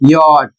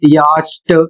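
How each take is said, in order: First: The word ends in a plain t sound. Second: The word ends in an st sound. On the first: The speaker calls it right. "इसका उच्चारण होता है यॉट" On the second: The speaker calls it wrong. "यदि इसे आप पढ़ते हैं यास्ट ... तो गलत पढ़ रहे हैं"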